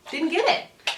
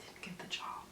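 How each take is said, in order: First: Mock indignant. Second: Deadpan whisper. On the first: Punchline repeated after whisper. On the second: Telling viewers the rejection, in a deadpan whisper. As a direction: whisper "Didn't get the job." flatly under the breath. Punchline after hopeful interview story. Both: Real, not acted.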